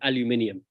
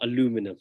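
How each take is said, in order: First: It is said with a British pronunciation. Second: It is said with an American pronunciation.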